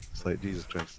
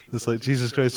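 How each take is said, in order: First: A tired mutter of disbelief; muttered under breath. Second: Said in the usual way. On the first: Real, not acted. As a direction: drop it to a quiet mutter. Repeats exasperated remark, muttered.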